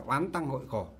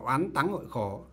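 First: It is read the Southern Vietnamese way. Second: It is read the Northern Vietnamese way. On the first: "miền Nam thì đọc là" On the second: "miền Bắc thì đọc là"

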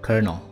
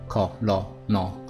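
First: It starts with an r-colored 'ker' sound. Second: It is read as spelled, starting with 'col'. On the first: The speaker calls it right. "它是有个有这个r 的音哦" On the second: The speaker calls it wrong. "你说自然发音法直接这样看，你可能会念成什么colonel"

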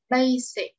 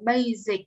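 First: The s sound is clearly pronounced. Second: The s sound is not clearly pronounced. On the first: The speaker calls it right. "Cái từ này mình đọc là basic" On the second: The speaker calls it wrong. "chứ mình không đọc là basic nha"

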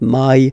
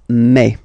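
First: The vowel is a gliding 'eye' sound. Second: The vowel is a plain 'eh' sound. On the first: The speaker calls it wrong. "So it's not my" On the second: The speaker calls it right. "it's me"

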